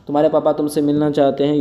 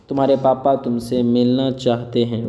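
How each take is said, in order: First: Said in the usual way. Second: Measured, word-by-word teacher delivery. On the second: Shown as a demonstration. Teacher models sentence slowly, then quicker.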